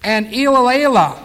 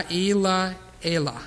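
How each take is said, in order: First: Elilah said loud and stressed the wrong way; a first, wrong stab at Elilah; mispronounced name. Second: Elilah said very slowly, stress on the A; corrected pronunciation. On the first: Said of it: "Let me try that again". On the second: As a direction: carefully correct Elilah, leaning on the A. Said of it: "Emphasis on the A". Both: Shown as a demonstration.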